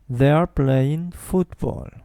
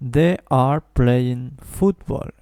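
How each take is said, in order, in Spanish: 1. They're se dice como una sola sílaba. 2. They are se dice como dos sílabas completas. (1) "Esto en una sola sílaba" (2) "no digo they are playing football"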